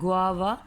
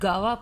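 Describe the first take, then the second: First: It starts with a 'gw' sound. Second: It starts with a plain 'g' sound. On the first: The speaker calls it right. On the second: The speaker calls it wrong.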